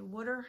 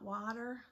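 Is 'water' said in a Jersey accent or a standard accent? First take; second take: Jersey; standard. First: It is said with a New Jersey accent. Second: It is said with a standard, non-Jersey accent. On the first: "with my Jersey accent. Yes, I say water" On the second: "not water"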